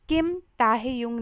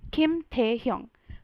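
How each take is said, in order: First: The second syllable is split into 'tah-heh'. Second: The second syllable is a single 'teh'. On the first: The speaker calls it wrong. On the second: The speaker calls it right.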